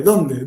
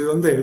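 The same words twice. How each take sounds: First: Said in the usual way. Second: "dónde" misread with the stress on the last syllable, donDE; wrong accent. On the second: Shown as a demonstration. Speaker reads out the slide's misplaced accent, stressing the end of "dónde". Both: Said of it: "justo pusimos mal acento".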